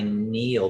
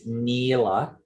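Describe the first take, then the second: First: The word ends without the final vowel. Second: The word ends with a final vowel sound.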